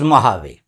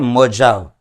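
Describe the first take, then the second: First: The middle consonant is an H sound. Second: The middle consonant is a J sound. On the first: The speaker calls it right. "It is मोहावे" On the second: The speaker calls it wrong. "इसको pronounce मत करें मोजाव"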